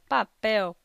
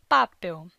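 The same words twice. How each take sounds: First: The stress is on the last syllable. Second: The stress is on the first syllable. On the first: The speaker calls it right. "a sílaba tônica é a sílaba pel" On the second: The speaker calls it wrong. "caso contrário, diríamos papel"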